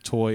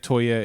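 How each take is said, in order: First: The name is said plainly, like toy. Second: The name is said with an added flourish. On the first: "It might be Toy" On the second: "I always say Toye. ... I always like to add a little pizzazz to it"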